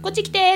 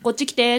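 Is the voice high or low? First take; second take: high; low. First: It is said in a high voice. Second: It is said in a low voice.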